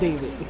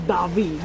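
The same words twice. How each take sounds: First: The name is said with an English pronunciation. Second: The name is said with a Spanish pronunciation. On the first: The name is treated as an English name. The speaker calls it wrong. "not David" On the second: The speaker calls it right. "I'm pretty sure you're David"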